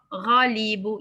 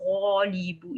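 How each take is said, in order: First: The first vowel is said with spread, smiling lips. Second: The first vowel is said with rounded lips. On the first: The speaker calls it right. "you can even smile" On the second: The speaker calls it wrong. "It's not ghalibu. It's wrong"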